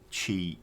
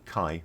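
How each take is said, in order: First: The name begins with a ch sound. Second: The name begins with a k sound. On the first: The speaker calls it wrong. "I keep wanting to pronounce that as Chi, but it's not" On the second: The speaker calls it right. "Kai as in Chiron"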